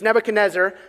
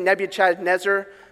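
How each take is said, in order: First: The name is said in its usual way. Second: The name is said as it is spelled. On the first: The speaker calls it right. "It's Nebuchadnezzar, so I'm going to try to say it right" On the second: The speaker calls it wrong. "that's how I say it in my mind as I was typing my notes so I would spell it right"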